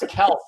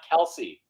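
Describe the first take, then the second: First: The name is said as one syllable. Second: The name is said as two syllables. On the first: The speaker calls it right. "his name is actually pronounced Kels" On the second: The speaker calls it wrong. "Not Kelsey"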